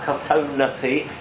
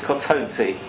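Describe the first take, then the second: First: An extra vowel is heard before the last syllable. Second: No extra vowel is heard before the last syllable. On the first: The speaker calls it wrong. "so it's not Kotonati" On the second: The speaker calls it right. "it's Kotonti"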